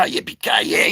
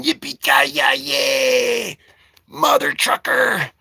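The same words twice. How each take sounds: First: Said in the usual way. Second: Drawn-out hammed-up movie yell; John McClane style mock yell. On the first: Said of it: "only he's not yelling". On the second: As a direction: stretch it into a slow mock war cry.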